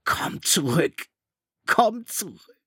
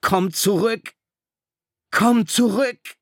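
First: High, slowed cry breaking apart; voice cracking wildly. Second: High, loud desperate yell; screaming to the ship. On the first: Ralph's voice cracking as he cries after the ship. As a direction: let the voice crack in despair. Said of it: "seine Stimme überschlug sich irre". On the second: Ralph screaming at the departing ship, desperate. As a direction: scream across the sea at the ship. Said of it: "schrie zum Schiff hinaus". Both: A narrator's reading.

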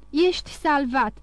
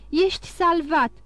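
First: Slow, breathless joyful announcement. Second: Higher, joyful repeat of Ești salvat; rising joy. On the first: First take slower and breathless. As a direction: daughter gasping the good news to her father, breathless joy. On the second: Second take lifted higher in joy. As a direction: daughter repeating the news to her father, more excited. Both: A narrator's reading. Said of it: "gâfâind și aproape dându-și sufletul de bucurie".

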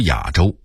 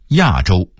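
First: 亚洲 as yǎzhōu; dipping third tone on 亚 in 亚洲; Beijing reading. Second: Said in the usual way. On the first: Shown as a demonstration. Narrator contrasting word lists, Beijing reading. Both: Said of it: "北京话读亚洲".

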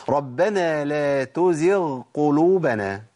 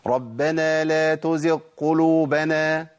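First: Slow Quranic recitation, clear غ in تزغ kept before the ق; correct recitation. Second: Slow recitation with the غ in تزغ swallowed into the ق; wrong merged letter. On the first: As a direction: recite تزغ with a full voiced غ, very slowly. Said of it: "اسمع طيب". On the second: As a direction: let تزغ lose its غ, merging it into the next ق. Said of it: "الخطأ فين بقى". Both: Shown as a demonstration.

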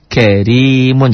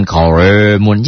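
First: Karimun with a light, thin R, drawn out; slow Karimun, thin R. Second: Karimun with a heavy, dark R like koremun; mock the mistake, karimun thick as koremun; the wrong way, karimun said as koremun. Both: Shown as a demonstration. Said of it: "jangan karimun".

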